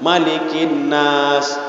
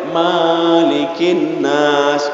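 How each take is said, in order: First: The first vowel of Malik is short. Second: The first vowel of Malik is long. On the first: The speaker calls it right. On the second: The speaker calls it wrong.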